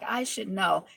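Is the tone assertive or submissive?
submissive. It is said softly and submissively.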